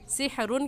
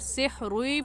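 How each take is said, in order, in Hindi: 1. अंतिम n अपने आप साफ़ सुनाई देता है। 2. अंतिम n अगली आवाज़ में मिल जाता है। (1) "सिहरुन कहना गलत है" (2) "रा के साथ मिलाकर सिहरुई पढ़ेंगे"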